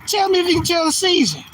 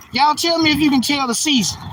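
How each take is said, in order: First: Same challenge pushed higher; insistent repeat. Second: Said in the usual way. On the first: Shown as a demonstration. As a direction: press the viewers harder on the repeat.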